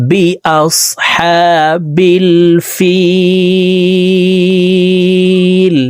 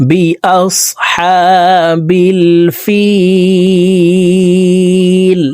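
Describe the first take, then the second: The two takes are said the same way.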